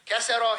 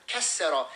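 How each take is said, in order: First: Said in the usual way. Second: "Kesero" with a long, held middle consonant; "Kesero" broken by a forceful held consonant; intensified pronunciation. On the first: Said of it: "he broke it". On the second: Shown as a demonstration. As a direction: hold and punch the doubled consonant in "Kesero". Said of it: "it's more intense now".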